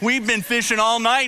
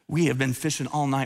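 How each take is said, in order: First: It is said mockingly, with a sarcastic laugh. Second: It is said in an irritated, annoyed tone. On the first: He thinks the request is absurd. "I think he may have said it with a sarcastic laugh" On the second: He is frustrated at being asked. "Maybe he said it annoyed"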